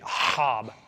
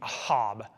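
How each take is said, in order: First: The first sound is a rough, throat-clearing h. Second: The first sound is a plain, soft h.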